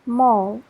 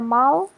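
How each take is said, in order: First: The vowel sounds like an O. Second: The vowel does not sound like an O. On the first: The speaker calls it right. "you should pronounce it with o" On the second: The speaker calls it wrong. "It's not mall or mall"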